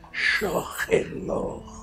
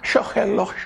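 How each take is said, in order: First: It is said slowly and warmly, with deep feeling. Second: It is repeated flatly and mechanically, without feeling. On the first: The soul is put into the meditation. The speaker calls it right. "No, es shohelo" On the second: The words are only repeated, not felt. The speaker calls it wrong. "Como la gente medita"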